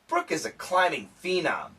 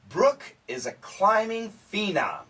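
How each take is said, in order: First: It is read at a quick pace. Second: It is read at a slow pace. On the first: "and then I'm going to go quickly" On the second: "I'm going to go slow"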